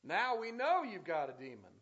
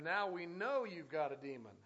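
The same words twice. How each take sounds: First: Loud, scornful taunt; mocking exclamation. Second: Mocking. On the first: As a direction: throw the accusation out as a sneer. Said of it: "there's an exclamation there 'cause I think that's the way it sounded". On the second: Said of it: "They're going to mock the Lord".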